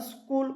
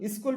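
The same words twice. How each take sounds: First: The word starts directly with the s sound. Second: A short i vowel comes before the s. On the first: This is the English pronunciation. "अंग्रेजी में स्कूल का उच्चारण स्कूल होता है" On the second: This is the Hindi pronunciation. "Hindi में इसे स्कूल स्कूल भी बोला जाता है"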